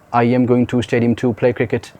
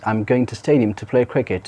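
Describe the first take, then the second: First: Every word is stressed equally, sounding slow and robotic. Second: Small words are reduced and the sentence flows quickly. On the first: The speaker calls it wrong. "all the words with equally stressed forms" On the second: The speaker calls it right. "combining all the parts of the sentence"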